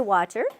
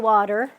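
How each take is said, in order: First: It is said with a British accent. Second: It is said with an American accent. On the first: "But in England, they say water" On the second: "In America, we say water"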